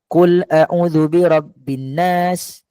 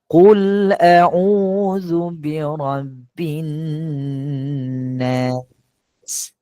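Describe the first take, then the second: First: It is read fast with shortened vowels, little nasalizing. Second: Long vowels and nasal sounds are held normally. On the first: The speaker calls it wrong. "Dikurangkan, dikurangkan panjang, kemudian dikurangkan dengung" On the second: The speaker calls it right. "bacaan yang biasa"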